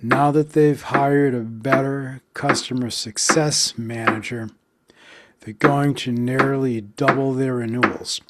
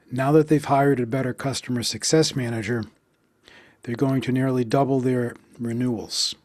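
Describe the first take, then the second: First: Rhythmic stress pulse; counted stress beats. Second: Said in the usual way. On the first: Shown as a demonstration. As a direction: tap out the stressed syllables. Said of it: "sentence stress beat". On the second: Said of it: "practice sentence, plain read".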